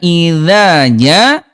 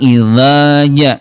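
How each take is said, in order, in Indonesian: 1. 'dh' itu tipis, pangkal lidah diturunkan. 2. 'dh' itu tebal, pangkal lidah dinaikkan. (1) "huruf tipisnya"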